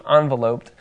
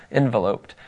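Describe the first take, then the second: First: Enveloped opening with "on"; enveloped with an open "ahn" first syllable; first vowel as "on". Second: Enveloped opening with "en"; enveloped with a short "in" first syllable; first vowel as "en". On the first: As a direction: say enveloped as ON-veloped. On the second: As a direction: say enveloped as en-VEL-oped. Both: Shown as a demonstration. Says word two ways, correcting himself.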